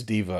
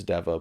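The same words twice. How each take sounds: First: "Dever" said as DEE-ver; long-e pronunciation. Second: "Dever" said as DEV-er; short-e pronunciation. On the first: Host weighing the surname, "Dever" as DEE-ver. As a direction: give "Dever" a long ee in the first syllable. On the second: Host correcting himself on the surname, "Dever" as DEV-er. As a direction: give "Dever" a short e, as in never. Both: Shown as a demonstration. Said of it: "I've heard her say Dever".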